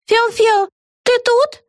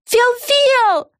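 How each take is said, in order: First: Very high sing-song call; calling from clouds. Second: Very high, drawn-out call of Фел-Фел; very high falling call. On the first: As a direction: call out for a friend in the sky. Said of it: "раздался голос из облаков". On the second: Calling again. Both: A narrator's reading.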